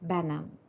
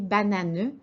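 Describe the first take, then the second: First: The final e is silent. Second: The final e is pronounced aloud. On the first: The speaker calls it right. "lisait directement banane" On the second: The speaker calls it wrong. "l'enfant qui lit bananeux"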